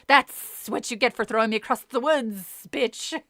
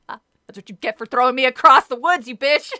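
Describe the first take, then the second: First: It is said in a hissing snake voice. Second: It is said in a plain voice.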